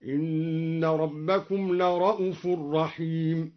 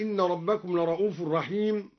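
First: "لرءوف" as la-ra'uf with short u; slow recitation, no long vowel after the hamza in "لرءوف"; shortened hamza. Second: Said in the usual way. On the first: Shown as a demonstration. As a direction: chant slowly, clipping "لرءوف" to la-ra'uf. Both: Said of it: "قرأ بقصر الهمزة".

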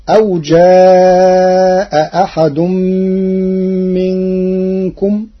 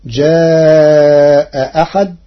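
First: Said in the usual way. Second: جاء أحد with the second hamza eased, ja'a ahad softened; Warsh reading. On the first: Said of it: "قرأ ورش كلمتي". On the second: Shown as a demonstration. Teacher demonstrates tashil of the second hamza, drawn out. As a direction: glide the hamza of أحد halfway, slowly. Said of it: "بتسهيل الهمزة الثانية بين بين".

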